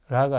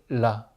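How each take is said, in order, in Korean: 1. L 소리가 약하고 불분명합니다. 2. L 소리가 또렷하고 분명합니다. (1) "라가 아니고" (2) "라메드 발음을 선명하게 해주셔야"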